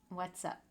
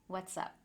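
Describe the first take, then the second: First: The two words are joined into one. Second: The same.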